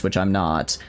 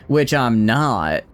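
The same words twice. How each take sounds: First: Said in the usual way. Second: "Which I'm not" drawn out slowly, each word leaned on; slow emphatic repeat. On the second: Shown as a demonstration. Streamer teasing chat, repeating the jab slowly and pointedly.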